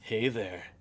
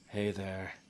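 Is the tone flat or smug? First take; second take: smug; flat. First: It is said in a smug tone. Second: It is said in a flat monotone.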